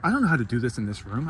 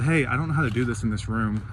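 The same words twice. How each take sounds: First: Quick, anxious, rushing the words; stressed out. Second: Even and unhurried, composed; calm. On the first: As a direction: retell the panic, a bit rushed. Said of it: "And I'm getting stressed out". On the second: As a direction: ask the manager calmly, keeping cool. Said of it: "So I calmly went up to the". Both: Retold or imitated.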